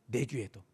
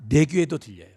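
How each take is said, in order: First: 내 귀에도 dropped to a near-whisper, much softer; soft echo. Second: Said in the usual way. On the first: Acted. Preacher echoing his own words to the congregation, much softer. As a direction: let 내 귀에도 fall away softly, like a private echo. Preacher repeats phrase, then echoes softly.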